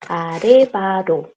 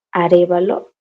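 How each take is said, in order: First: "Arevaro" with a tapped R in place of L; Korean rendering. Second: Said in the usual way. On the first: Shown as a demonstration. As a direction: stretch "Arevaro" syllable by syllable. Teacher reads surname as Korean.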